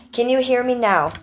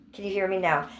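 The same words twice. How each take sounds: First: Loud, raised-pitch repeat; louder mic check. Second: Said in the usual way. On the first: Shown as a demonstration. Streamer checking whether chat hears her, louder. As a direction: project it up and out to test the mic.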